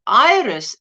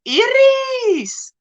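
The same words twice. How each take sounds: First: "Iris" said short as "EYE-ris"; local pronunciation. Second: "Iris" as a high, drawn-out "ee-REES"; foreign-style pronunciation. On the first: Host gives the local form, "Iris" said as EYE-ris. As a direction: say "Iris" with an eye sound first, unstretched. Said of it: "as we say it". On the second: Host greets viewer Iris by name, "Iris" drawn out as ee-rees. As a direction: stretch "Iris" high, with an ee sound first. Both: Shown as a demonstration.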